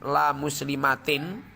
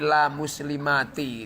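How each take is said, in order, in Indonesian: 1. Kata terakhir berakhir dengan bunyi n. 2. Kata terakhir berakhir tanpa bunyi n. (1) "jangan la muslimatin" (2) "tapi la muslimati gitu"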